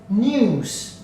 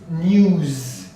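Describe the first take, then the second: First: The word ends with an s sound. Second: The word ends with a z sound. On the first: The speaker calls it wrong. "news with a S" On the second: The speaker calls it right. "the correct pronunciation is news with a Z"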